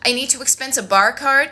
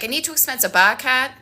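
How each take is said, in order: First: It is said in her usual accent. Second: It is said in a Boston accent.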